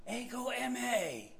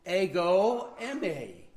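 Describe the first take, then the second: First: Ego eimi again, higher and softer, leaning on eimi; repeated Greek ego eimi. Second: Ego eimi said as Greek, stress on ego, falling. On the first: Preacher repeating the Greek for the congregation. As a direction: echo Ego eimi gently with weight on eimi. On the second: Preacher teaching the congregation the Greek, careful pronunciation. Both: Shown as a demonstration. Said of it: "I am" in Greek is".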